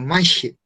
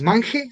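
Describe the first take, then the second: First: The ch is a strong, aspirated sound. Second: The ch is a soft, light sound. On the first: The speaker calls it right. "Es como más fuerte, más aspirado" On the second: The speaker calls it wrong. "no dices manje"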